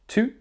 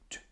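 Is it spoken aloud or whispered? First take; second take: aloud; whispered. First: It is said in a normal voice. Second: It is said in a whisper.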